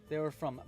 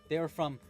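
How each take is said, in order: The two takes are said the same way.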